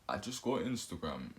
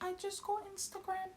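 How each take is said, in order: First: It is said in a put-on deep voice. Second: It is said in the speaker's normal voice. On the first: The speaker is trying to sound attractive. "I'm talking with a deep voice. I'm talking like I'm Batman on the voice note" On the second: The speaker is being his ordinary self. "if I'm talking like my regular self"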